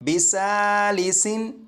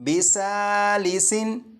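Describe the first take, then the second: Both takes have the same delivery.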